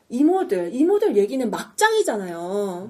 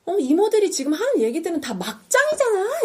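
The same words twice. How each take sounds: First: Exasperated but still polite appeal; mildly frustrated imitated protest, drawn out; acted frustration. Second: High-pitched acted outburst of frustration; imitated fed-up shout, pitch shooting up; exasperated yell. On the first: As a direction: reason with them, losing patience slowly. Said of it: "막 이렇게 답답해하면서". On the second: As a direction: snap and cry out at them. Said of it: "막 소리를 질러버려요".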